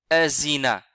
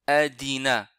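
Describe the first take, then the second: First: The middle consonant is a z sound. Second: The middle consonant is a d sound. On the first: "ils disent za. ... C'est aussi une erreur" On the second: "Alors que c'est faux"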